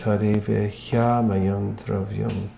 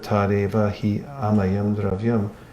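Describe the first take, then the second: First: The 'hi' glides straight into 'amayam'. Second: The 'hi' is a separate extra syllable. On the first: The speaker calls it right. "you don't have to pronounce the he separately" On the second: The speaker calls it wrong. "it adds an extra syllable that's not actually there"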